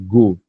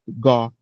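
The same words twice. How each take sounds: First: The O vowel is tightly closed. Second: The O vowel is wide open. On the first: This is the Portuguese way of saying it. "No português a gente fecha o O" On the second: This is the English way of saying it. "a gente vai falar com o O bem aberto"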